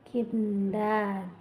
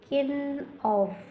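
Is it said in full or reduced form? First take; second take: reduced; full. First: The words are run together into two syllables. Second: Each word is said fully and separately.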